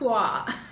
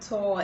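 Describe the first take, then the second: First: The vowel glides from 'oo' to 'uh'. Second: The vowel is a single 'or' sound. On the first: The speaker calls it right. "it's twa" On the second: The speaker calls it wrong. "a lot of people pronounce this word as tor. It's not tor"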